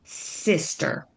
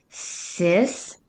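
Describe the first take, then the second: First: "sister" run together as one word, no gap; blended whole word. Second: "Sister" in two separate syllables, sis, then ter. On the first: Teacher making the new word, "sister" said whole. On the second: Teacher showing how to blend, "Sister" broken into syllables. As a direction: sound out "Sister" slowly with a long gap after sis. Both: Shown as a demonstration. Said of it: "blend each syllable and make a new word".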